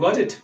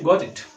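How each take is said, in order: First: It is said as a question. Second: It is said as a statement. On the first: Asking whether the listener understood. "Question के mood में बोलते हैं" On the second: Saying that one has understood. "आपने कहा गॉट इट समझ गया"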